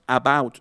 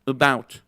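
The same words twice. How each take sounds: First: "about" as "ah-bout", clear open A; unreduced "about"; full first vowel. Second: "about" as "uh-BOUT", weak first vowel; reduced start on "about"; schwa. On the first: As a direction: mispronounce "about" with a full Spanish A. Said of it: "ya no es about". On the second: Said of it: "es about". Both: Shown as a demonstration.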